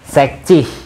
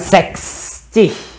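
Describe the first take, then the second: First: There is no s sound before the ending. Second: There is an s sound before the ending. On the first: The speaker calls it right. "Sek tanpa S" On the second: The speaker calls it wrong. "bukan seks cih"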